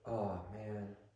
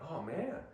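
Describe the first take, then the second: First: It sounds sympathetic and sorry. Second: It sounds excited and happy. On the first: Showing sympathy for bad news. "if you say it this way" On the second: Reacting to good news. "if I say something great, he's like"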